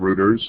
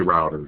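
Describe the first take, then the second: First: It is said with a British pronunciation. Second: It is said with an American pronunciation. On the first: "in England too, routers" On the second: "But here we say routers"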